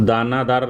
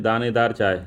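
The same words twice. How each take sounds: First: दानादार said with a long a in the middle, daa-naa-daar; दानादार as the wrong form, middle syllable naa. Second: दानेदार said with e in the middle, daa-ne-daar; दानेदार as the correct form, middle syllable ne. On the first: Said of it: "अशुद्ध वाक्य कि दानादार चाय". (दानादार, बीच में "ना") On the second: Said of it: "दानेदार होता है". (दानेदार, बीच में "ने") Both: Shown as a demonstration.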